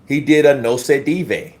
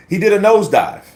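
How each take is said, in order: First: "no se dive" as three split syllables; joke mispronunciation. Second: "nosedive" said normally as one word; plain "nosedive"; proper pronunciation. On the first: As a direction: say "no se dive" like no-say-dee-vay. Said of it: "when I say no se dive, I mean nosedive". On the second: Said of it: "I mean nosedive". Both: Shown as a demonstration.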